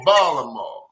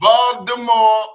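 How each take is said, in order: First: The t is dropped, with no consonant. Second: The t is said as a d.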